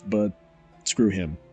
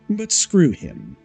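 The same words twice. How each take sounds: First: It is said in a plain, ordinary voice. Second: It is said in a put-on posh voice. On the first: The speaker calls it wrong. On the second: The speaker calls it right.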